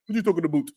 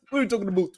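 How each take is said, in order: First: Mock Canadian accent. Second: Put-on a light Canadian accent on "What are you talking about?"; teasing, lightly voiced Canadian accent; mock Canadian accent. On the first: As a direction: play the Canadian accent lightly. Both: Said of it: "That's how they say, right?".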